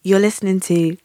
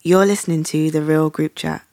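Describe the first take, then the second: First: Sexy voice. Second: Smooth sultry radio intro; sexy voice. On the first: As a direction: purr it like a late night DJ. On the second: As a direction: lay it on like a late night DJ. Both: Pretend. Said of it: "I have to get my sexy voice on".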